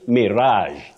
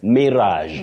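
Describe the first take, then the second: First: The stress is on the second syllable. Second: The stress is on the first syllable. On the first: "You can also say mirage with the stress on the second syllable" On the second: "You say mirage"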